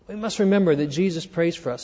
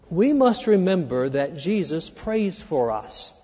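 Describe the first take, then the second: First: Fast, soft repeat, remember carried; quick restatement. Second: Slow, soft, weight on must; slow stressed point. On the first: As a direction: rattle it off quickly, stress remember. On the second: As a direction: lay each word down slowly, leaning on must. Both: Shown as a demonstration. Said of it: "Here's number one".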